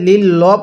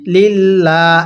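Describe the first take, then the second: First: The L sound is heavy and thick. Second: The L sound is light and thin. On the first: The speaker calls it wrong. "এখানে লিল ল পড়লে পড়াটা সহি শুদ্ধ হবে না" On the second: The speaker calls it right. "এই লামটা কিন্তু চিকন করে পড়তে হবে"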